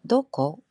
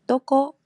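First: It uses the standard Tokyo pitch pattern. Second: It uses the Kansai pitch pattern. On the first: "도코가 아니라" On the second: "도코 이런 식으로"

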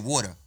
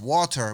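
First: The word is pronounced in a relaxed, casual way. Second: The word is pronounced carefully and fully. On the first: This is how people actually say it. "but we say water" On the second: This is the official pronunciation. "It's pronounced water"

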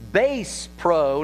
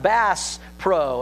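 First: Bass is said with the vowel of base. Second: Bass is said with the vowel of mass. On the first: It names music, like a bass guitar. The speaker calls it wrong. "she's understanding Bass Pro" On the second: It names the fish, like the intended store. The speaker calls it right. "not Bass Pro"

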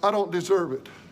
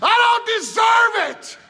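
First: It is said in a quiet indoor voice. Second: It is said loudly and excitedly.

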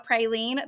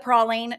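First: It is said the Oklahoma way. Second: It is said the Cajun way.

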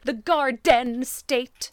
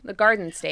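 First: The middle consonant of garden is strongly pronounced. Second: The middle consonant of garden is softened. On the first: This does not sound like a local New Jersey speaker. The speaker calls it wrong. "They keep pronouncing really strongly all the consonants in the middle of a word" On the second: This is how local New Jersey speakers say it. The speaker calls it right. "We say garden"

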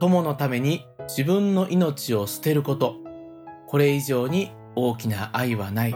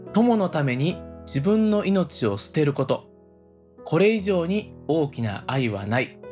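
Both takes have the same delivery.

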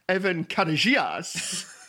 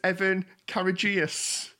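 First: The name is said with a foreign accent. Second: The name is said in a plain English way. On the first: "always had it with an accent in my mind, like" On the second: "I thought that it was Evan Courageous"

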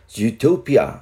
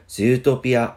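First: It is said with an English pronunciation. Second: It is said Japanese-style with a long zoo. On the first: "그래서 주토피아를 발음하실 때도 Zootopia 이렇게 발음을 하시면 됩니다" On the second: "일본어에서는 영어 발음 zoo가 장음이어서 이 부분을 살려서"

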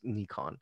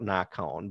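First: It uses the original, actual pronunciation. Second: It uses the common American pronunciation. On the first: This is how the name is really pronounced. The speaker calls it right. "but it's actually pronounced Nikon" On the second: This is how people in America usually say it. The speaker calls it wrong. "Here in America, we call it Nikon"

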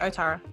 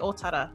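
First: It is pronounced with an anglicized pronunciation. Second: It is pronounced with a Māori pronunciation. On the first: The speaker calls it wrong. "But I will still say Otara" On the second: The speaker calls it right. "oh, I need to say Otara"

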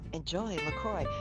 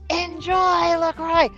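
First: It is said with little energy. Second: It is said with a lot of energy.

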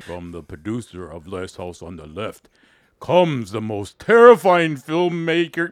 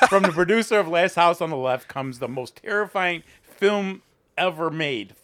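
First: It is read in a scary voice. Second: It is read in a normal voice.

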